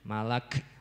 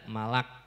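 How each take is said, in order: First: The final k is released with audible breath. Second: The final k is clipped short without breath. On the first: The speaker calls it right. "tapi malak, ada ada hamasnya" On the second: The speaker calls it wrong. "tidak malak"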